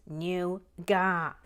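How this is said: The word is said in the British way. "In the U K, it is nougat"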